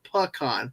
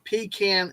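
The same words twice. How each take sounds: First: It is not said like pee plus can. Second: It is said like pee plus can.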